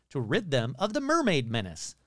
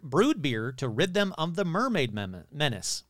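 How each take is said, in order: First: Said in the usual way. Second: Tripping over the words mid-read; stumbling on mermaid menace, breaking off at mem-; tongue-tied stumble. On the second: Real, not acted. Stumbling while reading the mermaid article aloud. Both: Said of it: "Ooh, that's hard to say".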